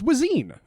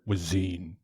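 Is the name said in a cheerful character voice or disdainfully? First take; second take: cheerful; disdainfully. First: The name is said in a put-on character voice. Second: The name is said with a frowning, disdainful voice. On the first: "you even say Wazine's name like Wazine's voice" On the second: "I was trying to channel Roland the Black and his disdain for Wazine"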